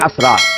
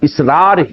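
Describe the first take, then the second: First: The name begins with an 'a' vowel. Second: The name begins with an 'i' vowel. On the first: The speaker calls it wrong. "आमतौर पर मेरा नाम लोग pronounce ही करते हैं असरार" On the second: The speaker calls it right. "मेरा नाम जो है हकीकत में असलन इसरार ही है"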